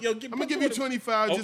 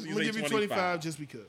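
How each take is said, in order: First: The voice is at its normal pitch. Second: The voice is lowered and deeper.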